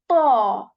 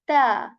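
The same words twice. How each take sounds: First: The t is heavy, with the tongue back raised. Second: The t is light, with the tongue back lowered. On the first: "I'm making it heavy and saying ta" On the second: "If this letter was light, this will be like ta"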